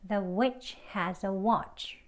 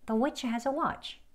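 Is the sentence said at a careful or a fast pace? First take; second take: careful; fast. First: It is said slowly and carefully, word by word. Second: It is said faster, with the words run together. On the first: "책 발음으로" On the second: "대화 발음으로 조금 빠른 속도로"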